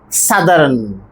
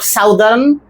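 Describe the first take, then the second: First: The first vowel sounds like a short 'ah'. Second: The first vowel sounds like 'ow' in south. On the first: The speaker calls it right. "That vowel sound is like this, ah" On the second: The speaker calls it wrong. "not southern"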